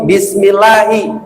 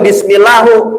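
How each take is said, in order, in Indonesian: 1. Kata ini diakhiri dengan vokal i. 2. Kata ini diakhiri dengan vokal u. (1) "maka di situ Allahi" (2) "nggak boleh"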